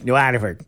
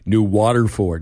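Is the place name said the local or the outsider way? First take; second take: local; outsider. First: The name is said the way locals say it. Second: The name is said the way outsiders say it. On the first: The speaker knows the area. The speaker calls it right. "No, it's New Waterford" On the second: The speaker is not from the area. The speaker calls it wrong. "you get people from away, as I call them"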